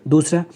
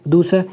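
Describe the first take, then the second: Both takes have the same delivery.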